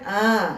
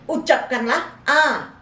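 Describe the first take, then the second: First: The vowel is spoken weakly and unclearly articulated. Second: The vowel is spoken loud and clearly articulated. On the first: The speaker calls it wrong. "jangan A" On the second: The speaker calls it right.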